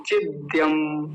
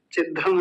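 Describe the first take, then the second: First: चिद्यम slow, with a clear dya glide; correct form. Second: चिद्धम short, ddh with no y glide; mispronunciation demo. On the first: Teacher correcting students, चिद्यम slow with clear y. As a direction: stretch चिद्यम and sound the y after d. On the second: Teacher rejecting a common mistake, चिद्धम without the y. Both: Shown as a demonstration. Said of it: "चिद्धम नहीं".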